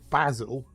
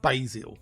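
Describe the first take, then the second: First: The word is said the British way. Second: The word is said the American way. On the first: The speaker calls it right. "the herb is called basil" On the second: The speaker calls it wrong. "not basil"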